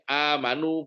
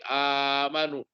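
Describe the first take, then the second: First: The long vowel is held for two beats. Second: The long vowel is held for six beats. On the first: "qashar dua harokat" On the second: "isbah enam harokat"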